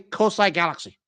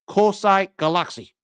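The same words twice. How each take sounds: First: The vowels are given English sounds. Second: Each a is said as an open ah. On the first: "You want to call it the English way" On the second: "the real name pronunciation is"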